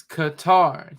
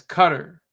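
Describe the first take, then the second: First: "Qatar" said kuh-TAR, a bit slow, stress on TAR; correct pronunciation. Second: "Qatar" said KUT-er, stress on the first syllable; mispronunciation. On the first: Shown as a demonstration. Correcting the news, slow kuh-TAR for "Qatar". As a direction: set the record straight: "Qatar" as kuh-TAR. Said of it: "It's Qatar". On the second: Retold or imitated. Mocking how the news says it, "Qatar" as KUT-er. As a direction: imitate the wrong "Qatar" as KUT-er. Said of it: "mispronouncing it".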